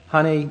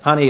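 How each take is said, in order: First: The word is said in a calm, relaxed tone. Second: The word is said in a desperate, pressing tone. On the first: There is plenty of time, just a friendly reminder. "You may start off well" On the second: Time is running out and the speaker is anxious. "You can tell the tone of voice is getting more desperate too"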